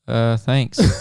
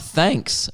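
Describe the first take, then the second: First: It is said in a flat, bored voice. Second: It is said in a normal, lively way.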